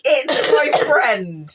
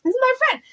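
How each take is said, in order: First: High, slow sing-song squeak; echoing the childlike voice; mock innocent. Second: High, sweet squeaky voice; childlike innocent. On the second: Retold or imitated. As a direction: chirp it like a child.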